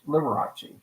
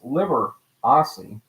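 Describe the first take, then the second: First: The C is said with a hard sound. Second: The C is said with a soft sound. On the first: This is the showbiz stage name. "with a hard C Italian pronunciation" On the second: This is the original family name. "pronounced Liberace"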